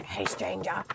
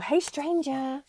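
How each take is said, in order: First: Much lower, softer creepy hey stranger; hammed-up sinister greeting; deep creepy voice. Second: Slow, higher drawn-out hey stranger; mock creepy stranger greeting. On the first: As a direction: drop way down like a lurking creep. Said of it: "That sounded really creepy, didn't it?". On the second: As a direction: lean into a creepy hello. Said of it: "That sounded really creepy".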